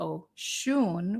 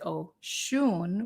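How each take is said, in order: First: The stress is on the second syllable. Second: The same.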